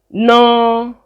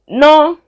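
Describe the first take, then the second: First: The word is said on a mid pitch. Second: The word is said on a high pitch.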